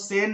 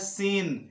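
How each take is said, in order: First: The vowel is a short 'e' sound. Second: The vowel is a long 'ee' sound. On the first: The speaker calls it wrong. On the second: The speaker calls it right.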